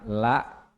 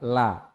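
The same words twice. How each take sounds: First: The vowel is cut off with a glottal stop. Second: The vowel is short with no stop. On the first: "la itu la ada hamzah" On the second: "tidak panjang"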